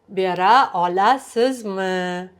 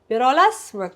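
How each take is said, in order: First: The second word is said with every syllable. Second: The second word is shortened, dropping a syllable. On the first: "Even if you do pronounce all of them" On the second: "I'm not saying olasizmi"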